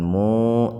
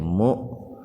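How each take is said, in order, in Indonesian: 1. Vokalnya ditahan panjang. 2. Bunyinya dipotong tiba-tiba. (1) "jangan dibaca panjang" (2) "hamzahnya dihentakan"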